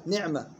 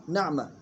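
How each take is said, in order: First: نعمة misread as "ni'ma"; wrong kasra. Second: نعمة said correctly as "na'ma"; fatha on nun. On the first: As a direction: put i after the nun in نعمة. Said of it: "خربطوا فيها". (نعمة بكسر النون خطأً) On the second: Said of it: "فتح النون". (نعمة بفتح النون) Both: Shown as a demonstration.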